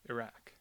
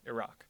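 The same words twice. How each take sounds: First: The second vowel sounds like the vowel in hat. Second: The second vowel sounds like the vowel in hot. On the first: Further from the original Arabic pronunciation. "Republicans were more likely to use the less source-like ah vowel" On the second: Closer to the original Arabic pronunciation. "Democrats were more likely to use the ah vowel"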